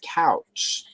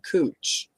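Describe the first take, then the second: First: The vowel sounds like 'ow' in cow. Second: The vowel sounds like 'oo' in moon. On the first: This is how the spelling reads. "if you look at the spelling of it, it's couch" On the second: This is how locals say it. "but they pronounce it cooch"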